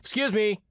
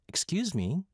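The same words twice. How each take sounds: First: It sounds plainly polite, like passing someone by. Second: It sounds flirtatious, trying to start a conversation.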